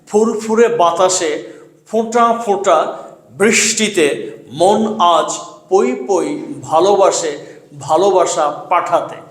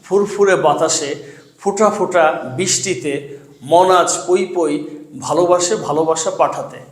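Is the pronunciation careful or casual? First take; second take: careful; casual. First: Each sound is articulated carefully and distinctly. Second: Sounds are pronounced loosely, like everyday speech. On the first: The speaker calls it right. "শুদ্ধ উচ্চারণে পড়ব" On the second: The speaker calls it wrong. "এটা শুদ্ধ উচ্চারণ না"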